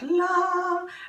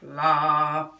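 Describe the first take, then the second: First: The word is said at a high pitch. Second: The word is said at a low pitch. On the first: It stands for love. "love has a high pitch" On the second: It stands for fear. "fear has a low pitch"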